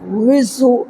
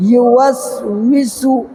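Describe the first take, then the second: First: विसु, with the start of युवस्विसु dropped; clipped wrong form. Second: युवस्विसु with every syllable said, यु clearly at the start; full word. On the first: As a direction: swallow the word to just विसु. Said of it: "हम लोग विसु बोल देते हैं". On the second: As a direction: say the whole युवस्विसु slowly. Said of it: "युवस्विसु नहीं बोलना, ... नहीं". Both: Shown as a demonstration.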